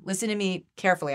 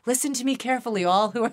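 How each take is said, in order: First: Said in the usual way. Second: Mock preacher calling out to the heavens, higher and louder; hammed-up sermon voice, mock-solemn; grand heavenly proclamation. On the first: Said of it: "I'm like". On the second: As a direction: proclaim it like a prophet addressing the multitudes. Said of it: "I keep looking up".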